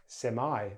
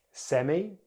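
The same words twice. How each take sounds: First: "semi" as SEM-eye; American "semi" ending like eye; American pronunciation. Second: "Semi" as SEM-ee; British "Semi" ending in ee; British pronunciation. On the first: Teacher contrasts accents, "semi" as SEM-eye. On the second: Teacher contrasts accents, "Semi" as SEM-ee. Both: Shown as a demonstration. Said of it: "British English or American English".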